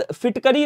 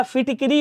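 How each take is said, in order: First: फिटकरी with "ka", "fitkari"; wrong middle vowel. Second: फिटकिरी with "ki", "fitkiri"; correct middle vowel. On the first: Teacher showing students the error, फिटकरी with "-kari". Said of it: "नहीं होता है भैया". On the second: Teacher correcting students, फिटकिरी with "-kiri". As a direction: put a clear i in फिटकिरी. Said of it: "होता है". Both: Shown as a demonstration.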